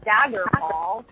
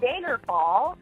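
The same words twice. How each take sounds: First: The A vowel has a standard, non-regional sound. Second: The A vowel has a North Dakota sound. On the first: The speaker calls it right. "instead of Daggerfall" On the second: The speaker calls it wrong. "I kept saying Daggerfall ... I was saying the A's, like I'm from North Dakota"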